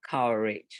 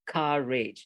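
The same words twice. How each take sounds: First: The first vowel follows the spelling, Indonesian-style. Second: The first vowel is a standard English vowel. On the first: The speaker calls it wrong. "not courage ... the general Indonesian way of pronouncing" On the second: The speaker calls it right. "courage sounds like courage"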